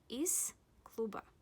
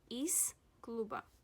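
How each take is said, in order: No difference in how they are said.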